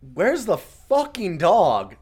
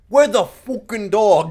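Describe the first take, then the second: First: It is said in the speaker's normal accent. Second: It is said in a mock Scottish accent.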